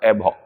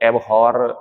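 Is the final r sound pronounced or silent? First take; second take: silent; pronounced. First: The final r sound is left silent. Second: The final r sound is pronounced. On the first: The speaker calls it right. "इसका आर ना silent रहता है बच्चों। ... एबहो ऐसा करके पढ़ें आप इसे" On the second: The speaker calls it wrong. "एबहॉर से बचें आप"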